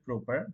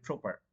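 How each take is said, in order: First: Proper said like "broper", rising at the end; proper with no puff on the first p; wrong P sound. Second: Proper with an aspirated first p, falling at the end; crisp breath-released p starting proper; correct P sound. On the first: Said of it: "That's not going to be". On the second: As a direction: puff air into the p of proper. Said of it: "That's going to be". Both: Shown as a demonstration.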